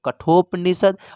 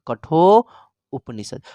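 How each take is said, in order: First: The two parts are merged into one word. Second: The two parts are said as separate words. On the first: "मिला के बोलेंगे तो" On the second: "अलग अलग करके बोलेंगे तो"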